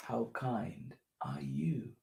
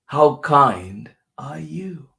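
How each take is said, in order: First: Slow, hushed whisper. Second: Louder, slow, stress on how; slow emphatic question. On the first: Host whispering the kindness question to children, slow. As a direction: whisper it gently and slowly. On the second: Host calling the kindness question out to children, emphatic. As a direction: announce the question big and slow. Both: Pretend. Same question, repeated in turns.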